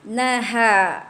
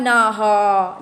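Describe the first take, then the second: First: The ha sound is thin, lips spread. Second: The ha sound is thick, mouth opened upward. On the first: The speaker calls it right. "Jadi kita macam senyum tau" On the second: The speaker calls it wrong. "Jangan buka ke atas mulut tu"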